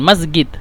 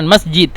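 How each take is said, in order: First: The consonant before the d is a hard g. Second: The consonant before the d is a soft j. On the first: This is how people from Cairo say it. "أهل القاهرة هم يتكلمون يعني جيم يعني غين" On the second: This is how people from Upper Egypt say it. "أهل الصعيد يعني هم ينطقون جيم يعني جيم"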